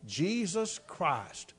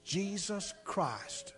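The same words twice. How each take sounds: First: Slow, soft, low murmur; preacher echoing the boy's words in a hush; hushed repeat. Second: Hushed, slow, much softer whisper; a boy whispering the forbidden words to the preacher. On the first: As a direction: let the words fall slowly and quietly. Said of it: "That man said". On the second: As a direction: breathe the words into his ear. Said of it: "he whispered in my ear". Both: Retold or imitated.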